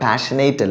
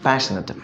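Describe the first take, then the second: First: The last syllable sounds like 'ate'. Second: The last syllable sounds like 'it'. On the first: The speaker calls it wrong. "അല്ല" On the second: The speaker calls it right. "പാഷനറ്റ് ആണ്"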